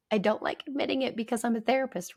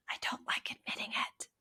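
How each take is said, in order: First: Said in the usual way. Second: Hushed whisper of a reluctant admission; quietly. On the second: Real, not acted. Therapist confessing to listeners a weakness, whispering. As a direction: let the words slip out under your breath. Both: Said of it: "do you notice I have to say that, like, quietly".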